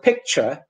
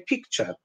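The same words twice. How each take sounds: First: The first vowel sounds like native English. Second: The first vowel sounds like the Polish i. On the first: The speaker calls it right. "Instead of picture" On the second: The speaker calls it wrong. "they say picture"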